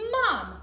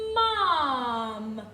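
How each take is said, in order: First: The sounds are blended quickly. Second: The sounds are stretched out slowly. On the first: "Now let's say it fast so we can hear the word" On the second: "Now let's put them together slowly"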